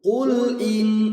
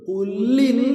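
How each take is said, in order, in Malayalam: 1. L വ്യക്തമായി പിടിച്ച് ഉച്ചരിക്കണം, പിന്നെ സ്വരം തുടങ്ങണം. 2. L ഇരട്ടിപ്പിച്ച് അടുത്ത സ്വരത്തിലേക്ക് ചേർത്ത് ഉച്ചരിക്കണം. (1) "ഖുൽ ഇൻ എന്ന് പറയണം" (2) "ഖുല്ലിൻ എന്ന് പറയരുത്"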